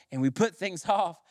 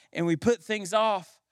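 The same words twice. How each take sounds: The two takes are said the same way.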